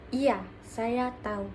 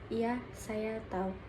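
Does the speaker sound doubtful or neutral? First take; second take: neutral; doubtful. First: It is said in a neutral, even tone. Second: It is said in a hesitant, doubtful tone. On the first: The speaker simply confirms knowing. "Nada netral" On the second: The speaker is not fully certain. "Nada ragu"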